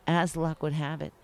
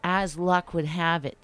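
Both takes have the same delivery.

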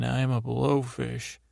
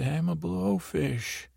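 First: Said in the usual way. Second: Higher and slower, meaning every word; with conviction. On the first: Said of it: "you say it again". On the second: Retold or imitated. Jesse, told to mean it, declares it with conviction. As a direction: own the line like you finally believe it. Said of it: "Say it like you mean it".

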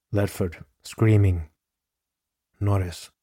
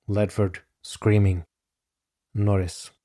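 Both takes have the same delivery.

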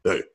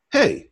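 First: Unimpressed star's reply. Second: High, eager "hey"; pitched way up, a starstruck hello; eager fan greeting. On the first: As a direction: imitate a star who can't be bothered. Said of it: "He goes". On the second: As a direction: greet your idol in a high, hopeful voice. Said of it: "I say". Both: Retold or imitated.

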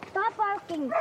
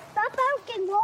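First: Said in the usual way. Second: Yelling at the dog. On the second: Real, not acted. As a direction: snap at the barking dog. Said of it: "let's not yell".

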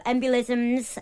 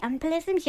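First: Said in the usual way. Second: EMBOLISMS pitched high with a rising, unsure tune; questioning. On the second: Real, not acted. Checking how to say a medical word, questioning. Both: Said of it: "is that how you say it".

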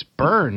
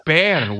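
First: "burn" said plainly with an r, as burn; "burn" in plain North American speech; correct burn. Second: "Bern" said like "bah-ren", rolled and open; "Bern" as the friend's Scottish "bah-ren"; wrong Bern. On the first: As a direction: say "burn" the standard way. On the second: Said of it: "It's burn". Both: Shown as a demonstration.

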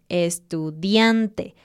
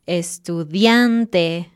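First: "Estudiante" slow, stress on DIAN; drawn out "Estudiante", stress DIAN; slow stressed syllable. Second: "estudiante" slow, stress on DIAN; slow stressed syllable. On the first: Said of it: "una sílaba antes del final". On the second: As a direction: stress "estudiante" on second-to-last. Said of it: "sílaba antes del final". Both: Shown as a demonstration.

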